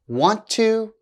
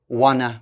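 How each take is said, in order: First: Both words are said fully and separately. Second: The words are blended into a reduced form.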